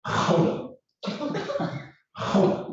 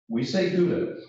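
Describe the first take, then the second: First: Gouda with a breathy throat H, HOW-da; Gouda in Dutch, guttural onset, how-da. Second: Gouda with a hard G, GOO-da; Gouda, hard G, English vowels. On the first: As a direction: say Gouda the Dutch way, rasped H at the start. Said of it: "They say something like". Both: Shown as a demonstration.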